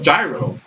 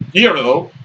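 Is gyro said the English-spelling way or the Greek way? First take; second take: English spelling; Greek. First: The word is said as its English spelling suggests. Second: The word is said with its Greek pronunciation. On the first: "in America, we call it gyro because that's how it's spelled" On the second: "in Greek, it's supposed to be pronounced gyro"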